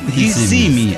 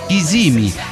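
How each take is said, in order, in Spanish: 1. El acento no está en la segunda sílaba. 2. El acento está en la segunda sílaba.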